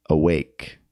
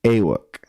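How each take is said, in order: First: Said in the usual way. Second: "awake" said as AY-wuk, A stressed; reversed stress, "awake" with a strong falling A; stress on first syllable. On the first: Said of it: "So the first word is". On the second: Shown as a demonstration. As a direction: hit the A of "awake", swallow the "wake". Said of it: "the stress would be on the A".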